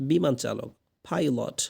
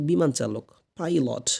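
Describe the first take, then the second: Both takes have the same delivery.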